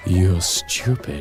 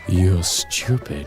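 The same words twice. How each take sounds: First: It is said in a sultry, sexy voice. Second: The same.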